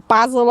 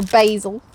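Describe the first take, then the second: First: "basil" said BAZ-ul with short a; British "basil", first syllable rhyming with jazz; British pronunciation. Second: "basil" said BAY-zul with long a; American "basil", first syllable like bay; American pronunciation. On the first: British pronunciation before American one. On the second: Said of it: "as the Americans say". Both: Shown as a demonstration.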